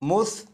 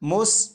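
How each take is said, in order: First: The consonant is soft, without any hissing. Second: The consonant has a sharp hissing sound. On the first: The speaker calls it right. "सीटी की आवाज़ ख़त्म हो जाएगी" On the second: The speaker calls it wrong. "इस तरह नहीं पढ़ेंगे"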